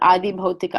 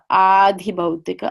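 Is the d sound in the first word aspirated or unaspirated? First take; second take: unaspirated; aspirated. First: The d in the first word is unaspirated. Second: The d in the first word is aspirated. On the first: The speaker calls it wrong. "I've seen it in print as Adi Bhautika" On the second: The speaker calls it right. "I believe the more correct way of, of writing it is Adhi"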